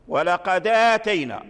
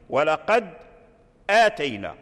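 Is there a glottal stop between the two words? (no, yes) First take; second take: no; yes. First: The words run together without any glottal stop. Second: A glottal stop is heard before the second word. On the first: This is the reading of Warsh's narration. "فحذفنا الهمزة ونقلنا حركتها إلى الدال في رواية ورش" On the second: This is the reading of other narrations. "أصل ولقد آتينا في غير رواية ورش"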